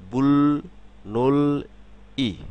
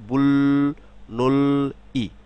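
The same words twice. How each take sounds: The two takes are said the same way.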